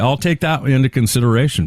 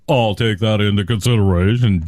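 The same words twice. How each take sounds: First: It is said in a sincere, polite tone. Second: It is said in a dismissive, condescending tone. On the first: The feedback is being acknowledged respectfully. The speaker calls it right. "you got to work on your tone. You got to say" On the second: The other person is being brushed off as foolish. The speaker calls it wrong. "You can't say, like"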